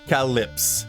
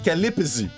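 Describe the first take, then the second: First: No extra vowel is added near the end. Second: An extra vowel is added near the end. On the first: The speaker calls it right. "So it's calyps" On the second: The speaker calls it wrong. "like like if there was a e in between both"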